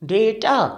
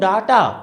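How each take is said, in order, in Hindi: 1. पहला स्वर एक 'ay' ध्वनि है। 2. पहला स्वर एक खुली 'ah' ध्वनि है। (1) "we would pronounce it डेटा... जैसे हम कहते हैं बेटा" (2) "अगर आप इसको बोलते हो डाटा, तो काम खत्म, रिजेक्शन"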